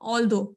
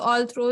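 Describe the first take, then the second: First: It has no r sound after the th. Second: It has an r sound after the th. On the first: The speaker calls it right. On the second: The speaker calls it wrong.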